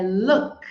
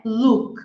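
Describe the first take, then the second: First: "look" with a short relaxed oo, close to "lók"; "look" certo com U curto e aberto; correct "look". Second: "look" said with a long tight oo, like "luuk"; "look" errado com U longo; wrong "look". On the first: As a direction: give the right short, open oo in "look". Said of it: "é look". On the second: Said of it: "não é look". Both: Shown as a demonstration.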